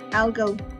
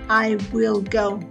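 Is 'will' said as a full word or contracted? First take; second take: contracted; full. First: Will is shortened to an L sound. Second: Will is said as a full separate word. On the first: "I say I'll go" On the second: "I don't say I will go"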